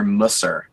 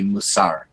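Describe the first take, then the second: First: It is said with a traditional yeshiva pronunciation. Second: It is said with a contemporary Israeli Hebrew pronunciation.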